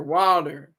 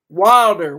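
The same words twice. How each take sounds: First: Said in the usual way. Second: A sudden loud call of "Wilder" as if he just remembered it; sudden loud outburst. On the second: Real, not acted. On remembering the boxer's name, a sudden loud call. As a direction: blurt the name out loud as it comes to him.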